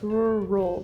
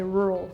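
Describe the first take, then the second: First: The word is split into two distinct parts. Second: The word is blended together as one smooth unit. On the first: Someone else says it this way. "like two parts" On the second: This is how the speaker normally says it. "But like I just say rural"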